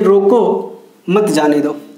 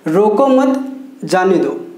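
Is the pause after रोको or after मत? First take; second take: रोको; मत. First: The pause comes right after रोको. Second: The pause comes right after मत.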